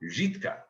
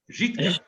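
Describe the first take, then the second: First: Žitka with a Czech ř at the start, rising; slow careful Žitka, stressed first syllable; Žitka as a local would say it; Žitka said carefully. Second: Žitka said quick and clipped at the end, falling; Žitka as a short confident repeat; Žitka said again. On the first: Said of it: "a place called Žitka". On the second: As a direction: snap out Žitka with the ř buzz. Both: Shown as a demonstration.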